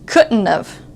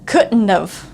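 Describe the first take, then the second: First: The T in couldn't just stops short. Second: The same.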